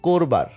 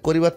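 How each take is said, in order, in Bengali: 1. শব্দে দুটি দল, প্রথম স্বরটি o-এর কাছাকাছি। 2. শব্দে তিনটি দল, মাঝখানে i। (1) "চলিত ভাষায় সেই ইকার বহু ক্ষেত্রেই বিলুপ্ত হলেও তার পূর্ববর্তী অ উচ্চারণে প্রায় ওকার থাকে" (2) "সাধু ভাষায় ব্যবহৃত পূর্ণাঙ্গ শব্দ কিংবা ক্রিয়াপদের বানানে ইকার আছে"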